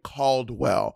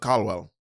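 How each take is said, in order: First: The name is said with an American accent. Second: The name is said with a Mexican accent.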